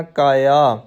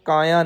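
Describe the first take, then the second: First: ਕਾਇਆ drawn out, falling at the end; corrected pronunciation. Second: ਕਾਇਆ said quickly, as the form to avoid; a quick, softer ਕਾਇਆ; mistaken pronunciation. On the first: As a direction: say ਕਾਇਆ as a measured model. (ਕਾਇਆ ਸਹਿਜ ਨਾਲ ਲਮਕਾ ਕੇ) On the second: (ਕਾਇਆ ਛੇਤੀ ਤੇ ਹੌਲੀ ਆਵਾਜ਼ ਵਿੱਚ) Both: Shown as a demonstration. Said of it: "ਕਾਇਆ ਨਹੀਂ ਕਹਿਣਾ".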